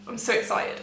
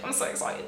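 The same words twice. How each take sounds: First: Giddy half-whisper; barely containing the thrill under her breath; hushed excitement. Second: The same thrill pulled right down to a whisper; softer whisper. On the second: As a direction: rein it in to a hush. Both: Real, not acted. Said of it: "Okay, calm down".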